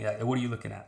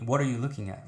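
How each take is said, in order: First: It sounds hostile and confrontational. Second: It sounds sincere and genuinely inquiring.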